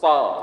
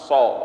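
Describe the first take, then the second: First: Said with tongue low, the vowel sounds like a. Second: Said with pursed lips, the vowel sounds like o. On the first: The speaker calls it right. "Perhatikan mulut saya ya, menjadi huruf, letakkan dulu sa" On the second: The speaker calls it wrong. "dengan bibir dimonyongkan so"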